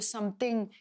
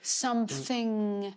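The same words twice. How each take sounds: First: The final ing is cut short and nasal. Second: The final ing is smooth, open and sustained. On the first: The speaker calls it wrong. "qui va arrêter le ing et qui va nasillardiser le ing" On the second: The speaker calls it right. "le ing va être chanté plus, avec beaucoup plus d'aisance"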